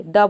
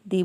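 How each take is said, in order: First: "द" said as a short schwa the; "द" with a short neutral vowel, marked correct; right pronunciation. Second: "दी" said as dee, the long vowel form; "दी" as dee before a consonant, marked wrong; wrong pronunciation. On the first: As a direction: say "द" short and light, like thuh. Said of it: "द बोलेंगे". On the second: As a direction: say "दी" with a long ee to show the wrong choice. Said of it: "ना कि दी बोलेंगे". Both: Shown as a demonstration.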